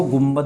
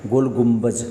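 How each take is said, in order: First: "गुम्बद" ending in a d sound, not j; common mispronunciation. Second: "गुम्बज" ending in j rather than d; corrected final consonant. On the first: Teacher quoting what some people say, "गुम्बद" with final द. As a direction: close "गुम्बद" on द instead of ज. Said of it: "कुछ लोग इसको गुम्बद बोलते हैं". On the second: Teacher correcting the name some people use, "गुम्बज" with final ज. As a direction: finish "गुम्बज" on a ज sound. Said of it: "ज आएगा यहाँ पर". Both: Shown as a demonstration.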